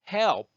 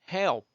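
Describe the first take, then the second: No difference in how they are said.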